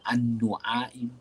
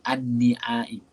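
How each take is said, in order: First: The vowel after the n is u. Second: The vowel after the n is i. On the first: "Tak dibaca an-nu'aim" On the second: "Tak dibaca"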